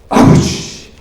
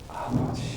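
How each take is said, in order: First: It is said loudly and forcefully. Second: It is said quietly and gently.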